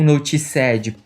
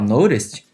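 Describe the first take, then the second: First: The ending is pronounced as a full 'ed' syllable. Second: The ending is pronounced as a plain 't' sound. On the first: The speaker calls it wrong. "se tu me vier com noticed" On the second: The speaker calls it right. "alguém que conhece inglês"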